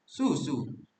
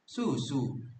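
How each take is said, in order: First: It is melodic with the last vowel elongated. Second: It is melodic with the last vowel elongated.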